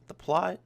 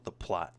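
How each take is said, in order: First: "The plot" said much higher and louder with a rising end; emphatic "the plot". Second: Said in the usual way. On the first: Shown as a demonstration. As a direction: punch "The plot" up high and loud, as if in disbelief. Restarts phrase to emphasize plot.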